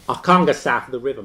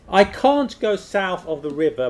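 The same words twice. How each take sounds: First: It is spoken in a traditional Cockney accent. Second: It is spoken in a standard English accent. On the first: "traditional Cockney accent" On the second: "Standard English"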